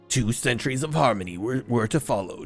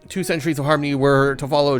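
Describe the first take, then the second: First: A deep, gravelly put-on voice is used. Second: The speaker's ordinary natural voice is used. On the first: The speaker calls it wrong. "I'm using the, the Batman voice" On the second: The speaker calls it right. "I gotta stop that"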